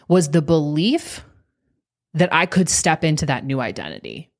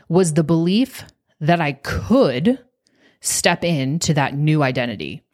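First: It is said at a normal pace. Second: It is said slowly and deliberately.

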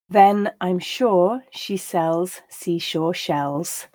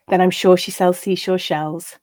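First: The line is read at a slow pace. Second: The line is read at a natural pace. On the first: "I'll read each line slowly" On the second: "then once at that more natural pace"

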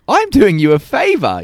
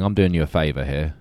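First: It is said with a forced smiling tone. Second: It is said in a grouchy tone.

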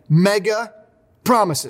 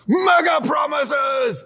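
First: It is said in his normal voice. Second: It is said in a special put-on voice.

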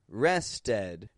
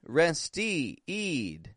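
First: The last syllable has a short E vowel. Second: The last syllable has a long E vowel. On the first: "I'm not pronouncing it an E. You know, I didn't just say rested" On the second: "Nor did I say rested"

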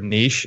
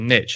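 First: It is said with a British pronunciation. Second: It is said with an American pronunciation.

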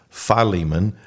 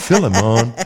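First: It is said in a non-Jamaican way. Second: It is said in a Jamaican way.

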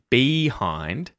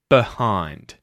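First: The first vowel is a full 'ee' sound. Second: The first vowel is reduced to a schwa. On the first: "instead of saying behind" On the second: "you'll hear behind"

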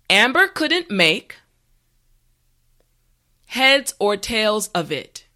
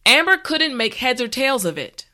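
First: The sentence is spoken slowly and carefully. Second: The sentence is spoken at a normal speed. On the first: "this time repeat after me" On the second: "the last time at a regular pace"

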